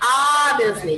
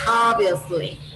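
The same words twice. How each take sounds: First: The mouth opens too wide on the vowel. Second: The mouth stays less open on the vowel. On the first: The speaker calls it wrong. "don't open too much your mouth. Don't say obviously" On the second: The speaker calls it right. "just obviously"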